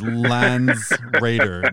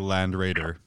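First: An s sound ends the first word. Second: No s sound ends the first word. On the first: The speaker calls it right. "it is Lands Raider" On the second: The speaker calls it wrong. "not a land raider"

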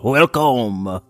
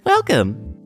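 First: It is said in a French chef voice. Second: It is said in a preschooler voice.

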